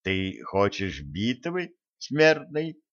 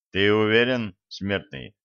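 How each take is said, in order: First: Hushed sinister taunt rising at the end; mock the foe like a gloating villain; mustache twirling villain. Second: A dark spirit taunting a mortal; menacing spirit. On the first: Spirit mocks the elder. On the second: Acted.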